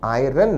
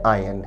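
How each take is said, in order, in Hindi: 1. बीच में 'r' ध्वनि सुनाई देती है। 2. बीच में कोई 'r' ध्वनि सुनाई नहीं देती। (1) "का उच्चारण आयरन नहीं है" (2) "आयन है"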